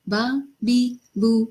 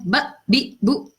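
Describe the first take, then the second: First: Each syllable is said lightly and softly. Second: Each syllable is cut off with an abrupt jerk. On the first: The speaker calls it right. "हल्के से अदा करना है, नरमी से।" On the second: The speaker calls it wrong. "इसको भी ना झटका देना है, ब बी बू इस तरह नहीं पढ़ा जाएगा"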